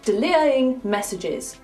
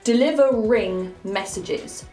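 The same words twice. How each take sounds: First: The R in delivering is left out. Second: The R in delivering is clearly sounded. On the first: The speaker calls it wrong. "otherwise it sounds like delivering messages, which makes no sense" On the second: The speaker calls it right. "We have to pronounce the R in this word"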